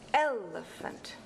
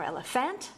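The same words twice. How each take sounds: First: The stress is on the first syllable. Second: The stress is on a later syllable. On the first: The speaker calls it right. "it's elephant. ... stressed, unstressed, unstressed is a dactyl" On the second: The speaker calls it wrong. "It's not elephant"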